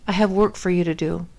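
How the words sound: It is said in a calm, level tone. The speaker calls it right. "his tone of voice with me is just so even keeled"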